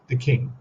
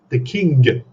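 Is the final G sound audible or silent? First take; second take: silent; audible. First: The word ends without a hard G sound. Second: The word ends with a clear hard G. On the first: "now I'm pretty much pronouncing it K I N" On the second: "he'll say that G more pronounced"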